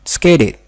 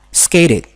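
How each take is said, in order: Both takes have the same delivery.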